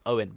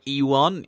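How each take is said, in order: First: The name is said as "Owen". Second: The name is said as "Ewan". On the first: The speaker calls it right. "it's actually pronounced Owen" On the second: The speaker calls it wrong. "it looks like Ewan"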